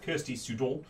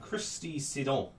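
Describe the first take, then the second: First: The first name begins with the sound 'Kirs'. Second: The first name begins with the sound 'Chris'. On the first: The speaker calls it wrong. "I was about to pronounce it Kirsty Sudon" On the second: The speaker calls it right. "obviously it's Christy K R"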